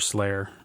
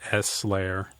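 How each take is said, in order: First: The S blends into one word, like the band. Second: The S is spoken as a separate letter. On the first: This is the speaker's preferred way of saying it. "I just like to say Slayer. It's a good band" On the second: This is the official name of the plugin. "They call it S layer"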